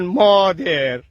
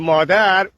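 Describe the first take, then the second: First: The end of the word is drawn out. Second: The end of the word is short.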